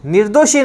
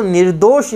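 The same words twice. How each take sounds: First: निर्दोषी with a final "ee"; wrong form. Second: निर्दोष ending on "sh" with no vowel; correct form. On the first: Teacher to students, showing the wrong word निर्दोषी. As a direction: end निर्दोषी on a long ee, the form to avoid. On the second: Teacher to students, giving the right word निर्दोष. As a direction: stop निर्दोष cleanly on the sh. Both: Shown as a demonstration. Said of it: "निर्दोषी नहीं है".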